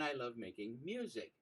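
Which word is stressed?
music. The word "music" carries the stress. "as I put an emphasis on each word"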